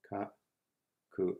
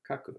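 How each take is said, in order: First: "ka, Ku" as two short, isolated beats; syllable by syllable. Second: Said in the usual way. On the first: Shown as a demonstration. Teacher breaks down the action word, syllable by syllable. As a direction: split "ka, Ku" with a long pause between syllables. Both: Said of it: "Finally is our action word".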